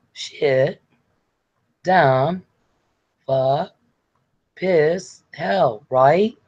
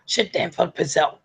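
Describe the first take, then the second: First: Hesitant swearing, one word at a time; Sarah trying to swear. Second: Rattled-off cursing. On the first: Acted. Sarah trying out curses for [name], halting and polite. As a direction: imitate a polite attempt at cursing, questioning lifts. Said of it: "No, Sarah". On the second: Shown as a demonstration. [name] showing Sarah how to cuss, rattled off. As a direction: swear words run together, higher pitched. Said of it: "You're supposed to go".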